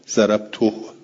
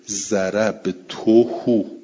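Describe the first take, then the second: First: The word ends on a bare h, no vowel. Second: The final h is followed by a u vowel. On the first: Some Arabs say it this way. "اینو بعضی عربا چجوری تلفظ میکنن؟" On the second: This is the usual reading. "ما قبلش متحرکه"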